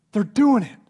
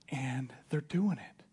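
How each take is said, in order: First: Loud, high, exultant proclamation; emphatic excitement. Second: Slow, soft and half-whispered; hushed reveal. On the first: Timothy insists to Paul that they're thriving, exultant. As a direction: punch it out high and loud in triumph. Timothy acted, peak of good news. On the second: Timothy tells Paul the church is thriving, hushed. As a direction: breathe the news out quietly and slowly. Timothy acted, first quiet telling. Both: Acted.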